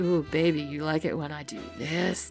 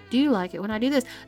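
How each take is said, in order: First: It is asked in a put-on sexy voice. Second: It is asked in a plain, ordinary voice.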